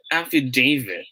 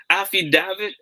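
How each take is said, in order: First: Falling "affidavit" with DA said as "day"; long A in affidavit. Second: High, rising "affidavit" with DA as in "dad"; short A in affidavit. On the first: Teacher quizzes viewers on this word, long-A affidavit. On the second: Teacher quizzes viewers on this word, short-A affidavit. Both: Shown as a demonstration. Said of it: "How should we say this word?".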